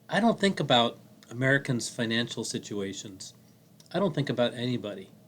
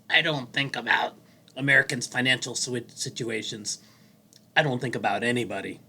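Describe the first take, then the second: First: It is said in the speaker's natural voice. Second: It is said in an imitated, put-on voice. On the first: "he didn't say it like this" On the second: "I want to do it his way"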